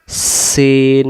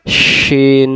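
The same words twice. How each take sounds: First: "সিন" with a thin S, not SH; "সিন" as a long "seen"; sharp S sound. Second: "শিন" with SH from mid-tongue; "শিন" as a long "sheen"; broad SH sound. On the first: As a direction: say "সিন" drawn out, starting on a clean S. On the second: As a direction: say "শিন" drawn out, starting on a full SH. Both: Shown as a demonstration. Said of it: "জিহ্বাটার মাঝখান থেকে ভেসে আসবে".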